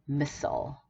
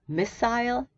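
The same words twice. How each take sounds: First: It is said with an American pronunciation. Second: It is said with a British pronunciation. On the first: "in red American" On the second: "the first one is British"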